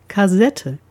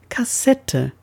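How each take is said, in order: First: "Kassette" with a buzzing voiced S, like kazette; "Kassette" mispronounced with a voiced S; wrong voiced ss. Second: "Kassette" with a sharp voiceless S, slowly; "Kassette" said slowly and correctly with a hissed S. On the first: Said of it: "Oder, inzwischen aus der Zeit gefallen". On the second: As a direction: hiss the ss in "Kassette" cleanly. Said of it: "soll aber Kassette". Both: Shown as a demonstration.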